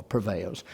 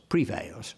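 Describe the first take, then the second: First: "prevails" as pruh-VAILS; unstressed pruh in "prevails"; reduced-vowel prevails. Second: "prevails" as pree-VAILS; long-E prevails. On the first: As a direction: say "prevails" with a weak schwa in the first syllable. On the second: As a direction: say "prevails" with a clear ee in the first syllable. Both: Shown as a demonstration. Contrasts two pronunciations of prevails.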